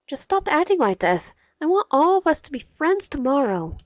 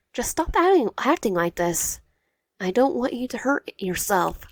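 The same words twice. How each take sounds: First: Higher, louder urgent plea. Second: Urgent plea. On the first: Wyatt urging Cairo to stop acting this way, higher and loud. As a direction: beg him to stop, raised voice. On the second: Wyatt repeating her plea to Cairo, high then slowing. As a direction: plead again, first word high. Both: Acted.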